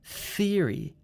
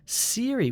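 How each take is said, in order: First: The word begins with a th sound. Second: The word begins with an s sound. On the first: The speaker calls it right. "poke out your tongue and say theory" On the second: The speaker calls it wrong. "which sounds like an S sound. That's also wrong"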